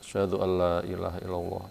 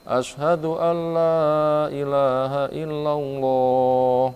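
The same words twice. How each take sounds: First: It is said quietly, in a low voice. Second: It is said loudly, in a full voice. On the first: "ia baca lirih" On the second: "ulang keras"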